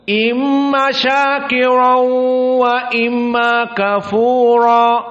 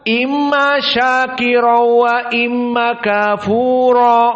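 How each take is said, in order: First: The n merges into w with a held nasal sound. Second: The n merges into w without any nasal sound. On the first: This is the reading of the majority of reciters. "Lihat jumhur bagaimana?" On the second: This is the reading of one particular reciter. "hanya idgham bila gunnah"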